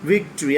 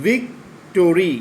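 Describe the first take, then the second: First: ভিক্টরি in one smooth run; said together. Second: ভিক্টোরি slowly, each syllable apart; broken into syllables. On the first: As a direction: join ভিক্টরি into a whole word. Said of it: "একসাথে উচ্চারণ কী হবে". (ভিক্টরি একসাথে উচ্চারণ) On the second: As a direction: spell out ভিক্টোরি vic-to-ri, slow. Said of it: "ভেঙে ভেঙে বলতে হবে". (ভিক্টোরি ভেঙে ভেঙে, ধীরে) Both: Shown as a demonstration.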